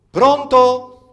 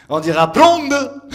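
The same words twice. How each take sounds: First: Said in the usual way. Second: "blonde" said with a D, slow and loud. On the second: Shown as a demonstration. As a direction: say "blonde" slowly, D for T. (« blonde » avec un D, lent et appuyé) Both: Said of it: "les T sont des D".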